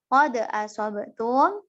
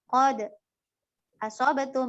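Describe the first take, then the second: First: No pause comes after qad. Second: A brief pause comes after qad. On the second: "Berhenti sejenak. Dua harokat"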